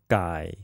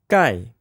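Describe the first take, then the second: First: The pitch dips low and then rises. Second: The pitch falls sharply from high to low.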